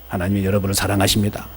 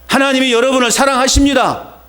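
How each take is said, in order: First: It is muttered quietly, barely audible. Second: It is spoken loudly and clearly. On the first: The message is kept to oneself. The speaker calls it wrong. "들려요? 안 들려요? 답답하죠? 이렇게 하지 말라는 거예요" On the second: The message is proclaimed boldly to others. The speaker calls it right. "잘 들리죠? 이렇게 공부하라는 거예요"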